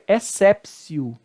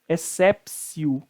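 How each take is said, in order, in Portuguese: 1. A consoante do meio é um som de S. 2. A consoante do meio é um som de S.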